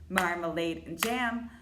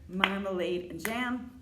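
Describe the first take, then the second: Both takes have the same delivery.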